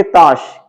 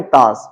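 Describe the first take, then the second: First: ताश said with a clear sh sound, taash; ताश pronounced taash as a teacher models it; correct pronunciation. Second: ताश said with a plain s, taas; ताश mispronounced as taas, as learners often say it; common mispronunciation. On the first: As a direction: say ताश with the palatal sh, not s. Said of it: "तो हमें बोलना चाहिए". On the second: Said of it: "हम क्या बोलते हैं". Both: Shown as a demonstration.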